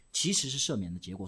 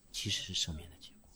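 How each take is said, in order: First: Said in the usual way. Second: 其实是赦免的结果 dropped low and soft, as a hushed reveal; quiet answer. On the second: Real, not acted. Preacher answering his own question, 其实是赦免的结果 in a low soft hush. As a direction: let 其实是赦免的结果 fall quietly, much lower. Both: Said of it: "到底是赦免的原因还是赦免的结果".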